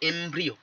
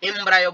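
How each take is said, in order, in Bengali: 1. 'embr' এর পরের স্বরধ্বনিটি 'ee' এর মতো শোনায়। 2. 'embr' এর পরের স্বরধ্বনিটি 'eye' এর মতো শোনায়। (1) "প্রপার উচ্চারণ এমব্রিও" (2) "এমব্রায়ো বলা ছেড়ে দাও"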